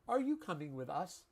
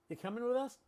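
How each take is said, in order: First: Every word is said fully and carefully. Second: The first word drops and coming becomes comin'. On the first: The speaker calls it wrong. "No one says that" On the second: The speaker calls it right. "ing is often reduced to in apostrophe"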